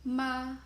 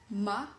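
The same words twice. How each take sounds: First: The pitch stays high and level. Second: The pitch rises from middle to high. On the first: "high level tone" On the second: "rising tone"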